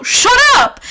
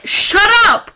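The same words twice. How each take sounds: First: Higher, louder, slow "shut up" yell; shouted shut up. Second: Drawn-out, fed-up "shut up"; slow dismissive shut up. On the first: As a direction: bark it out, fed up. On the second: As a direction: drag out the words, scornful. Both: Retold or imitated. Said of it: "I was like".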